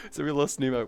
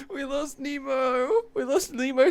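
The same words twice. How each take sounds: First: Said in the usual way. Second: High, crying-tinged mock lament; fake-weep over the loss; mock sobbing. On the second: Streamer mock-mourning a friend lost to videos, crying voice.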